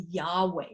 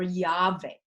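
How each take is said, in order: First: Yahweh said YAH-way; w pronunciation. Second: Yahweh said YAH-vay; v pronunciation. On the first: Teacher giving the name of Israel's God, Yahweh with a W. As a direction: keep a W in the middle of Yahweh. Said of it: "can be pronounced Wa". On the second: Teacher giving the alternative name, Yahweh with a V. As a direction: put a V in the middle of Yahweh. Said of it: "more commonly is pronounced Va". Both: Shown as a demonstration.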